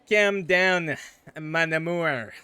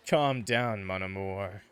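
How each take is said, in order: First: It is said in a French-Canadian accent. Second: It is said in the speaker's plain accent.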